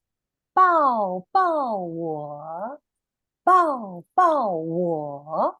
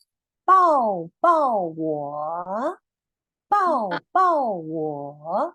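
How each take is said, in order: First: Very slow, clear 抱抱我 again for repeating; slow model phrase. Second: Very slow, loud, clear 抱抱我; slow model phrase. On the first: Teacher repeats the Mandarin phrase for children. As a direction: draw out each syllable of 抱抱我. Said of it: "Do you want to try". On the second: Teacher models the Mandarin for children to repeat. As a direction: say 抱抱我 syllable by syllable, slowly. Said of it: "Just listen". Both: Shown as a demonstration.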